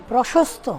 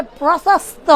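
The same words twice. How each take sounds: First: 'প্রশস্ত' with a clear sh, 'proshosto'; correct sh. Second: 'প্রশস্ত' with s for sh, 'prosasto'; mispronounced sibilant. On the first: Shown as a demonstration. Teacher correcting pupil, 'প্রশস্ত' said with sh. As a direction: model 'প্রশস্ত' with palatal sh. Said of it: "এত বলে দিচ্ছি". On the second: Retold or imitated. Pupil still failing after correction, 'প্রশস্ত' with plain s. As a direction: get the sh in 'প্রশস্ত' wrong, as plain s. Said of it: "তো বলে".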